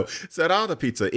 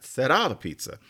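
First: "Será" with Spanish tapped r; Spanish future demo. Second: "Será" said the Spanish way, tapped r; Spanish future demo. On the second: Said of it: "you use the future for that". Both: Shown as a demonstration.

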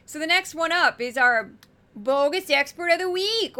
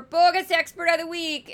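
First: Higher, louder announcer call; big segment announcement. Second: Put-on jokey Minnesota accent, higher and louder; hammed-up Minnesota accent for the segment title. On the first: Acted. Host hyping the weekly segment to viewers, loud announcer voice. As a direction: boom it out like a game show host. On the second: Host announcing the bogus expert to viewers in a mock Minnesota accent. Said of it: "as I do my Minnesota accent".

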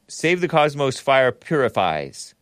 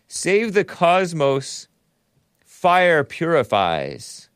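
First: "Save the cosmos fire purifies" run together with no pause; no punctuation. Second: Reading a viewer's message slowly, "Save the cosmos", pause, "fire purifies"; pause after cosmos. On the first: Shown as a demonstration. Showing the message lacks punctuation, "cosmos fire" run together. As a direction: join "cosmos" straight onto "fire" as one phrase. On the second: Real, not acted. Reading out a super chat message, pause after "cosmos". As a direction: split "cosmos" from "fire" with a clear pause, words drawn out. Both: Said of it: "no punctuation in it".

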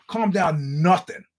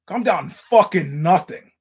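First: Lightly heated, drawn-out retort; slow, mildly annoyed pushback; indignant retort. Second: Louder, slow, emphatic comeback; angry retort. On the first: Comic retelling his comeback to an armed heckler, indignant. Snaps back in retold standoff. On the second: Comic retelling his comeback to an armed heckler, angrier and louder. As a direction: lean hard into an indignant retort. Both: Retold or imitated.

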